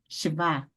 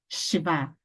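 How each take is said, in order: First: The stress falls on the last syllable. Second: The stress falls on the last syllable.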